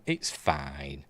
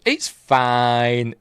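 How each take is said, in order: First: Low soft "It's fine.", lower and quieter; resigned. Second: Mock cheer. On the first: Vlogger shrugs off a dull episode, resigned and low. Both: Real, not acted.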